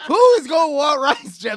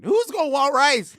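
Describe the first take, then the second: First: Screaming it even louder and higher; louder outraged yell. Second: Shouting, pitch jumps high; outraged yell. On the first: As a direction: yell it at full volume, appalled. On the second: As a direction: yell it in disbelief. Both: Real, not acted. Outraged repeat about rice.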